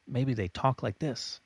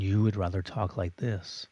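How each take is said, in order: First: Quick, higher demo of an annoying voice tempo; annoying fast tempo. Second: Calm, even, unhurried demo of your own tempo; slower preferred tempo. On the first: Teacher demos an annoying fast talker, quick and higher. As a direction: rattle it off like the talker you can't stand. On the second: Teacher shows the slower tempo he prefers, calm and even. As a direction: settle back into an easy pace. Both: Shown as a demonstration.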